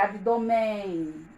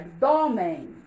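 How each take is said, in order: First: The stress is on the last syllable. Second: The stress is on the second syllable. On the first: The speaker calls it wrong. "Senão ficaria abdômen" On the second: The speaker calls it right. "é abdômen"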